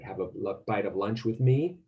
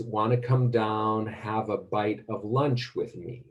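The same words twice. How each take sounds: First: "me" lifted up at the end; rising question. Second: "lunch with me" with a falling tune at the end; deliberately wrong falling tune; flat falling question. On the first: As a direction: let "bite of lunch with me" rise into a question. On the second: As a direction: read the invitation so it drops down on "me". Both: Shown as a demonstration. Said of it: "Or, it doesn't sound like that".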